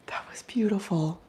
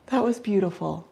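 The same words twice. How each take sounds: First: Whispering. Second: Said in the usual way. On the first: Real, not acted. Awed by owl.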